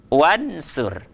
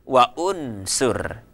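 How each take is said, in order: First: The u vowel is dropped, linking wa to nsur. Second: The u vowel after wa is pronounced separately. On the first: The speaker calls it right. "Saya misalnya mengatakan wansur" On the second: The speaker calls it wrong. "Saya tidak mengatakan wa unsur"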